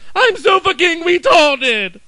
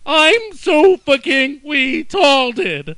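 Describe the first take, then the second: First: It is said quickly, words run together. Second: It is said slowly, word by word.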